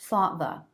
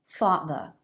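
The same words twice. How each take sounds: Both takes have the same delivery.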